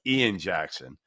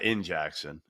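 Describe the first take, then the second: First: The first name is said fully as 'Ian'. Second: The first name is clipped to sound like 'in'. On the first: This is the name's proper pronunciation. The speaker calls it right. "but Ian Jackson" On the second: This imitates how someone else says the name. The speaker calls it wrong. "not in Jackson, as Tyler Hansborough pronounces it"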